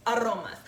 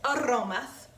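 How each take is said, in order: First: Said in the usual way. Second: "aromas" stretched with a rising, savoring lilt; drawn-out aromas. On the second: Shown as a demonstration. Cook savoring the word "aromas" for viewers, a rising lilt. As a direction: linger on "aromas" as if smelling it.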